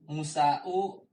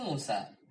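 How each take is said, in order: First: The word ends with an added u vowel. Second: The word ends on a plain long a. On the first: The speaker calls it wrong. "Tidak dikatakan ya Musa'u" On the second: The speaker calls it right. "Ketika marfu Musa"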